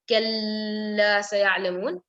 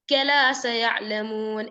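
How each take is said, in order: First: The l is nasalized with a hum. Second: The l is short and single. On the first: "doing gunna" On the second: "you read it without shadda"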